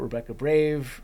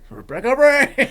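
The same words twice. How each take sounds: First: It is said in the speaker's ordinary voice. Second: It is said in a put-on foreign accent.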